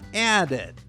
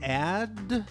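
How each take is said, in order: First: The ending is an extra syllable, ed. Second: The ending is a plain d sound. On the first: The speaker calls it right. "it makes the sound ed" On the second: The speaker calls it wrong. "No, that doesn't sound right"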